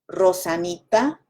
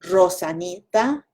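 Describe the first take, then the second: Both takes have the same delivery.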